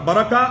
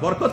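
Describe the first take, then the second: First: It is said barakah, ending in a vowel. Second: It is said barakat, ending in a t. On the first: This is the Arabic pronunciation. "এটা হলো আরবি উচ্চারণ" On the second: This is the Urdu and Persian pronunciation. "Urdu এবং ফার্সি system উচ্চারণ"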